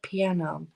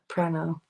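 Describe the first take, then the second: First: The word has no r sound after p. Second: The word has an r sound after p. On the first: The speaker calls it right. "He put it together" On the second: The speaker calls it wrong. "And he's like"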